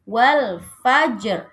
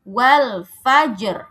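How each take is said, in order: No difference in how they are said.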